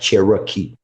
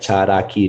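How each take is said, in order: First: The middle consonant sounds like an r. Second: The middle consonant sounds like a d. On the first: The speaker calls it wrong. "not Cherokee" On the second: The speaker calls it right. "the R sounds like a D"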